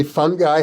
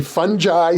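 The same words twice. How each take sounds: First: "fungi" said FUN-guy, with a hard g; "fungi" with a hard g, ending like guy; hard-g pronunciation. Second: "fungi" said FUN-jye, with a j sound; "fungi" with a soft g, rhyming with eye; soft-g pronunciation. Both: Shown as a demonstration. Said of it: "some people say fungi".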